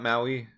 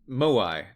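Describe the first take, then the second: First: The word sounds like mow-ee. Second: The word sounds like moe-eye. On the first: The speaker calls it wrong. "not Maui" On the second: The speaker calls it right. "Moai, not Maui"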